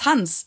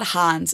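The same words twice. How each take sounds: First: The vowel is kept short. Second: The vowel is drawn out long. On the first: The speaker calls it right. "it's Hans" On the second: The speaker calls it wrong. "It's not it's not Hans"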